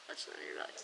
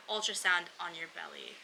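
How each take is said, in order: First: Ultrasound on your belly whispered, much lower and breathless. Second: Said in the usual way. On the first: Retold or imitated. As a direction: breathe the words as a tired aside to yourself. Whispered echo of the previous phrase.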